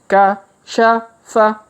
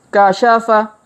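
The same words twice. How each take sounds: First: The letters are read slowly and separately. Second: The letters are read quickly together. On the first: "kita baca pelan-pelan" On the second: "Kalau dipercepat"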